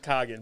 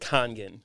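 First: The word is said without the middle N sound. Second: The word is said with the middle N sound. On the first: The speaker calls it wrong. "it's always Kagan" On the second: The speaker calls it right. "it's supposed to be like Kangen"

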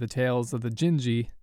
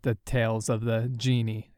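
First: The last word sounds like 'gen-jee'. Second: The last word sounds like 'genie'. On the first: The speaker calls it right. "an ancient classical piece of Japanese literature" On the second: The speaker calls it wrong. "the embarrassing mistake of ... call it"

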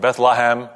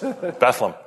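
First: The word is said with three syllables. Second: The word is said with two syllables. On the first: The speaker calls it wrong. "not Bethlehem or Bethlehem" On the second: The speaker calls it right. "but it's Bethlehem"

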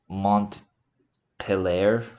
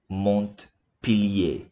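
First: The name is said with an American accent. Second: The name is said with a French accent.

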